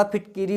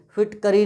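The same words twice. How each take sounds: First: फिटकिरी as phit-ki-ree; ki in middle. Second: फिटकरी with "ka" in the middle; wrong a form. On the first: Teacher correcting students' word, फिटकिरी with ki. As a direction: say फिटकिरी with "i" after the k. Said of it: "फिटकरी नहीं होता". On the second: Teacher showing the rejected form, फिटकरी with ka. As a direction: say फिटकरी as phit-ka-ree. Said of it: "नहीं होता". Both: Shown as a demonstration.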